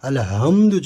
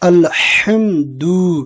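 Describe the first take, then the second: First: The h is a light, plain breathy h. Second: The h is a strong, throaty h. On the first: It means the extinguishing belongs to God. The speaker calls it wrong. "যদি হায়ের উচ্চারণের জায়গায় যদি হায়ের উচ্চারণ করি" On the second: It means all praise belongs to God. The speaker calls it right. "সঠিক উচ্চারণ করে আমরা পড়ব"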